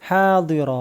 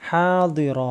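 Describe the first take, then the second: The two takes are said the same way.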